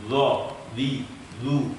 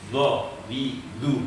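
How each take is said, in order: Both takes have the same delivery.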